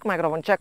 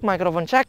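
First: The receiver is five steps away. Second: The receiver is twenty steps away. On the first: "Ini di jarak lima langkah" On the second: "Ini di dua puluh langkah"

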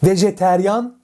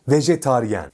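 First: The vowels are 'e' then 'ya' near the end. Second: The vowels are 'a' then 'ye' near the end. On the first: The speaker calls it wrong. "Vejeteryan değil" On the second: The speaker calls it right. "Doğrusu vejetaryen"

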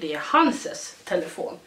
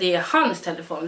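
First: The possessive is said as two syllables. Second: The possessive is said as one syllable. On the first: This is the home dialect form. "vi säger det är hanses telefon" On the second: This is the standard form. "Vi säger inte det är hans telefon"

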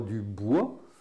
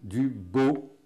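First: The word ends with a 'wa' vowel. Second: The word ends with an 'o' vowel. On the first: This is the standard form not used in those regions. "On ne dit pas du bois" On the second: This is the regional form used in those regions. "on dit du beau"

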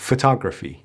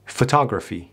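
Both takes have the same delivery.

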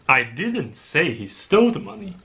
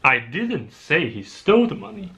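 First: The word 'didn't' is stressed. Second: The word 'didn't' is stressed.

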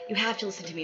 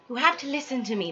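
First: It is read in a plain, ordinary voice. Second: It is read in a refined, eloquent character voice. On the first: "How should I do her voice?" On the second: "You should do her eloquent"

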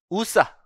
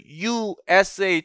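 First: It is spoken as a single word. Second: Each letter is spoken separately. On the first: The speaker calls it wrong. "우사라고 발음하지 않잖아요" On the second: The speaker calls it right. "철자 하나하나를 발음하니까"

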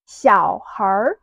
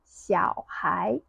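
First: The word ends with an r-colored sound. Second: The word ends without an r-colored sound.

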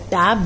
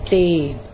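First: The vowel is a short a sound. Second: The vowel is a long a sound. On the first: "The short A vowel sound" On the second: "becomes long A vowel sound"

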